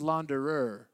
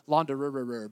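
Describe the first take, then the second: First: The word is said with its standard syllables. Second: The word is said with extra added syllables. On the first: The speaker calls it right. "but it's a launderer" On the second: The speaker calls it wrong. "I wanted to put like a couple more syllables"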